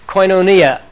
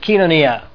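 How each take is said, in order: First: The first syllable is said like 'koy'. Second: The first syllable is said like 'kee'.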